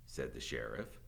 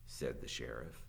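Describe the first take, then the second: No difference in how they are said.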